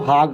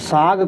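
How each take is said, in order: First: The word begins with an h sound. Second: The word begins with an s sound. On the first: "साग को हाग कहते हैं" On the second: "स की जगह ह इस्तेमाल करते हैं"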